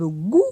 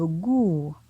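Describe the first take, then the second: First: The syllable has a high tone. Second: The syllable has a falling tone. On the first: "Pointon haut" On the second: "pointon descendant"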